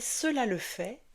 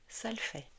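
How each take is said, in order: First: The first word has two full syllables. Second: The first word is shortened to one syllable. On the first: This is the full form. "avaler les sons" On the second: This is the casual spoken form. "va devenir"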